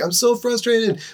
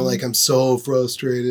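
First: It is said in a bright, cheerful way. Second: It is said in a gloomy, mopey way. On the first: The person is frustrated but still encouraged. "there is sort of a winsome spirit to you" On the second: The person is truly discouraged. "oh, I'm down in the dumps Eeyore"

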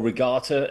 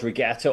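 First: The word has an American pronunciation. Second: The word has a British pronunciation.

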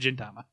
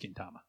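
First: The name begins with a j sound. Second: The name begins with a hard g sound. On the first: The speaker calls it wrong. "I said it like it's gin and juice" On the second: The speaker calls it right. "I think it probably is Gintama"

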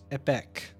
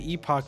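First: The second syllable sounds like 'ick'. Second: The second syllable sounds like 'ock'. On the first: The speaker calls it right. "it is pronounced Epic. E-P-E-K" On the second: The speaker calls it wrong. "I look at it and I say Epoch"

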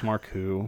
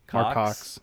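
First: The name ends with a French-style oo sound. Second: The name ends with a clear ks sound. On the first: The speaker calls it wrong. "He tries to say it's Marcou" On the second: The speaker calls it right. "That's the correct pronunciation"

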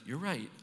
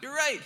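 First: It is said in a gentle, milder tone. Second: It is said in a harsh, savage tone.

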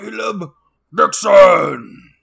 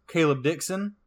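First: It is said in a monster-like voice. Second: It is said in a plain voice.

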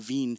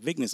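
First: The name is said like 'veen'. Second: The name is said like 'vines'. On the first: This follows the original French pronunciation. "the French pronunciation is Veen for his name" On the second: This is the form locals recognize. "Oh, yeah, I know where that's at"

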